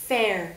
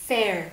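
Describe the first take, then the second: Both takes have the same delivery.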